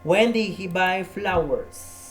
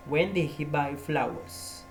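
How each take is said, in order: First: "When" punched higher and louder, slow; stress on WHEN. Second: Said in the usual way. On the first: Shown as a demonstration. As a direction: hit "When" hard.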